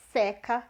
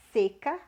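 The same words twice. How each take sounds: First: "seca" said SÉ-ca with an open e like in "café"; teacher shows students the verb "seca" with an open vowel. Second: "seca" said SÊ-ca with a closed e like in "você"; teacher shows students the noun "seca" with a closed vowel. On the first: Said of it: "mais aberto". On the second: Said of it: "mais fechado". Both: Shown as a demonstration.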